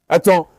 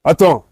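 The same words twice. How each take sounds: The two takes are said the same way.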